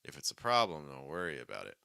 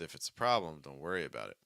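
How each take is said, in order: The two takes are said the same way.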